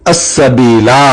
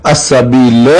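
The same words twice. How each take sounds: First: السبیلا slow, long final "laa"; written long ending. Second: السبیل as "as-sabeela", short final a; alif left silent. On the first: Teacher cites the written form, long-ending السبیلا. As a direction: hold the last alif of السبیلا. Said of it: "ساتھ والا الف". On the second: Teacher shows the reading, السبیل with short "la". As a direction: cut the ending of السبیل to a short "la". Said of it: "الف نہیں پڑھا جائے گا". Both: Shown as a demonstration.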